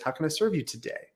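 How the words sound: The voice falls at the end.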